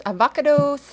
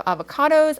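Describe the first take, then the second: First: Avocados said playfully, higher, stress shifted to the second syllable, a-VO-ca-dos; a playful Scooby-Doo nod on avocados, stress on VO. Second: Said in the usual way. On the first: Shown as a demonstration. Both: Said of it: "as I like to call them".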